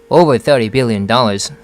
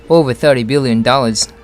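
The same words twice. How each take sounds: No difference in how they are said.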